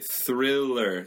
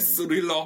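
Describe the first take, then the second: First: The word begins with a th sound. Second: The word begins with an s sound. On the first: The speaker calls it right. "스릴러 말고 thriller" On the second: The speaker calls it wrong. "S 소리 나면 안 돼요"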